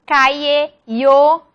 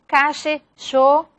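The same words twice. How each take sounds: First: "calle" said "caye" with a plain y glide; y variant. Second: "Calle" said "cashe" with an sh sound; "Calle" and "yo" with the Rioplatense sh; sh variant. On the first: Teacher shows the y variant of "calle". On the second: Teacher shows the first variant of "Calle" to the class. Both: Shown as a demonstration. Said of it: "distintas variaciones fonológicas".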